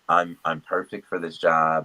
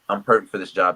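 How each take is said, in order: First: It sounds hesitant, with fillers and repeated words. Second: It sounds firm and sure, without hesitation. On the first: The speaker doubts they fit the job. The speaker calls it wrong. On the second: The speaker is certain they fit the job. The speaker calls it right.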